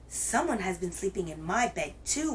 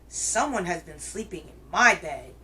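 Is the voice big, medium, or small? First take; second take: medium; big. First: It is said in a medium-sized groaning voice. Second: It is said in a great big growling voice.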